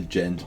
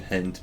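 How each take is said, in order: First: The word begins with a G sound. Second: The word begins with an H sound. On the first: The speaker calls it wrong. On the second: The speaker calls it right.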